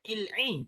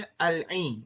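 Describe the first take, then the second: First: The word begins with an 'i' vowel. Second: The word begins with an 'a' vowel. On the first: The speaker calls it wrong. "kita tak boleh baca il-i" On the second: The speaker calls it right. "kita kena baca al-i"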